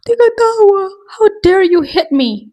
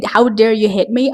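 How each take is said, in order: First: High, loud, put-upon shriek of "how dare you hit me"; mock-wounded girl shrieking "how dare you hit me"; outraged green tea. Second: Said in the usual way. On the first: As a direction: play the wronged innocent, hammed-up. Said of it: "the green tea's like". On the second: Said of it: "when I say".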